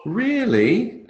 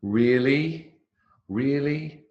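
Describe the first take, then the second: First: Very high, thrilled rising question; delighted. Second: Higher questioning rise, unsure; doubtful. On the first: Teacher copying friend's second response to baby news, delighted. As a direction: welcome lovely news with a high lilt. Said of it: "second one, it's, "Oh, how lovely". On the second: Teacher copying friend's first response to baby news, doubtful. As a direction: ask it as if checking they are sure. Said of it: "in the first one, which is, "Are you sure?". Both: Shown as a demonstration.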